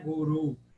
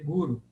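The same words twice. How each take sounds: First: The stress is on the second syllable. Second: The stress is on the first syllable. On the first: The speaker calls it wrong. "Mas não é guru" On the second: The speaker calls it right. "é guru, e paroxítono"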